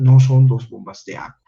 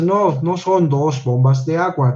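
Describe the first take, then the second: First: "bombas" said clearly as a plural, the S stressed; corrected reading, louder. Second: Said in the usual way. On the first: Shown as a demonstration. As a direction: read the fixed sentence with a louder voice. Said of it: "ya está en plural". (lectura corregida, marcando la S de "bombas") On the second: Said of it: "decía, ¿no?".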